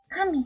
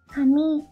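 First: The first syllable is high, then pitch falls. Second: The first syllable is low, then pitch rises. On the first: It means god. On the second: It means hair.

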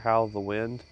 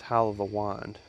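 First: The last word has an American pronunciation. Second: The last word has a Scottish pronunciation. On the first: "if you're an American, it's easier to say" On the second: "if you're of Scottish descent, then the correct way to say it"

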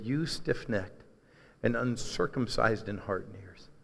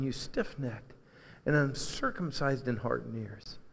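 First: It is read in a plain, neutral tone. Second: It is said in a sad, brokenhearted tone.

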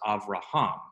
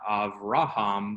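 First: The stress is on the last syllable. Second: The stress is on the middle syllable. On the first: The speaker calls it right. "the accent goes onto the last syllable" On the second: The speaker calls it wrong. "This is not Avraham"

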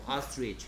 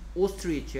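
First: The first vowel sounds like 'ah'. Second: The first vowel sounds like 'oh'. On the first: "아 해도 돼" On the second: "오 해도 되고"

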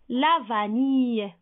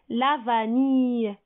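No difference in how they are said.

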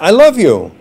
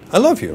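First: It is said warmly and sincerely. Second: It is said grudgingly and dismissively.

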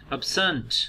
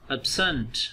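Both takes have the same delivery.

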